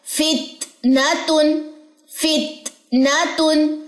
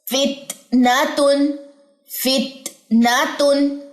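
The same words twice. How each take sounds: First: फितनातुन stretched very slowly, त with breath; slow recitation. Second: फितनातुन repeated very slowly; slow recitation. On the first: Tutor answers how the word is read, very slow. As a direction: draw out फितनातुन slowly, letting air through the त. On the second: Tutor repeats the word for students, very slow. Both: Shown as a demonstration. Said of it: "कैसे पढ़ा जाएगा".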